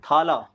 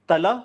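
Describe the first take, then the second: First: The first consonant is hard and strongly aspirated. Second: The first consonant is soft and light. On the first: The speaker calls it wrong. "I put the emphasis on the tha for deliberate effect" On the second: The speaker calls it right. "the th is rather soft. It's supposed to be softer"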